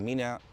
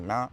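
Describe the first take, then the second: First: The word is said with both syllables. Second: The word is cut to one syllable. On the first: This is the official written language. "You don't say minä" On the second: This is how people speak on the streets. "you say mä"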